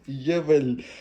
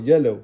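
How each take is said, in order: First: The word is said with a 'v' sound. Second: The word is said without any 'v' sound. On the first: The speaker calls it wrong. "यवल नहीं" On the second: The speaker calls it right. "येलो येलो।"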